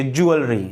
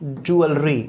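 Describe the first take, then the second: First: ज्वेलरी spoken clearly as djou-eul-ri, falling at the end; model pronunciation. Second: ज्वेलरी said slowly as djou-eul-ri, three clear syllables; model pronunciation. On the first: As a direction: repeat ज्वेलरी as djou-eul-ri for the class to copy. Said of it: "वो सुन लें, सुन के ही सीख जाएंगे". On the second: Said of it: "तो इसका pronunciation होगा". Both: Shown as a demonstration.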